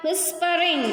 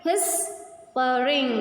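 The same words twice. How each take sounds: First: Said in the usual way. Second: "Whispering" very slow, long pause after "whis"; teacher's stretched split of "Whispering"; syllable by syllable. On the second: Shown as a demonstration. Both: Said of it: "These are two syllables".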